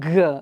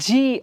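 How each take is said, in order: First: It is said as a bare hard g sound. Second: It is said as the letter name 'jee'. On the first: The speaker calls it right. "ಇದು G" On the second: The speaker calls it wrong. "G ಅಲ್ಲ"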